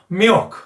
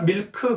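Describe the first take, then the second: First: It has a nasal-sounding English L. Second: It is said as flat Korean syllables. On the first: A native English listener would understand it. The speaker calls it right. "이렇게 에어 발음이 약간 코맹맹이 소리가 나야 된다" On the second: A native English listener would not understand it. The speaker calls it wrong. "우리나라 밀크 그냥 하면 리을이 에어 발음이 거의 안 나거든요"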